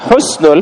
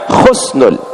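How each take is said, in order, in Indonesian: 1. Diawali dengan bunyi h yang lembut dan berdesah. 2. Diawali dengan bunyi kh yang serak di tenggorokan. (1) "tidak menggunakan huruf kha, tapi huruf ha" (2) "bukan khusnul"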